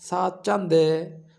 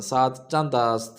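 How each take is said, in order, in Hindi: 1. क्रिया छोटे 'e' अंत में बदल जाती है। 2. क्रिया 'ast' के रूप में पूरी तरह बोली जाती है। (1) "बाज़ार में जो बोलते हैं वो कहते हैं" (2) "ये किताबी शक्ल में"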